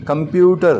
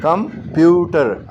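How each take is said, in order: First: computer as one word, stress on प्यू; stress on PYU. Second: computer slowly broken after कं, stress on प्यू; slow teaching computer, split before the stressed प्यू; syllable-split stress. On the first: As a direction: lean on प्यू in an unbroken computer. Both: Shown as a demonstration. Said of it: "प्यू जो है stress syllable है".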